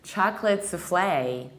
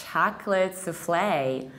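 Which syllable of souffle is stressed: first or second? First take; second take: second; second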